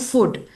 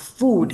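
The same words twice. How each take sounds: First: The vowel is a short oo sound. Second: The vowel is a long oo sound. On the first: The speaker calls it wrong. "a lot of Indians uh, end up saying food" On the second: The speaker calls it right. "it's a long oo vowel sound"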